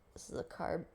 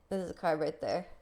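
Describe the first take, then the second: First: Softly whispered this is a carb. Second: Said in the usual way. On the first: Shown as a demonstration. Pointing out the carb to viewers, in a whisper. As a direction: breathe it as a soft whisper. Repeats it under breath.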